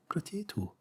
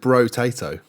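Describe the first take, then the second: First: The name begins with a 'po' sound. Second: The name begins with a 'bro' sound. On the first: "But you say potato" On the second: "I always pronounce it bro-tato"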